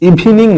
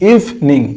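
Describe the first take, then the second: First: The word is said with three syllables. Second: The word is said with two syllables. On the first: The speaker calls it wrong. "এটার উচ্চারণ ইভিনিং নয়" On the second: The speaker calls it right.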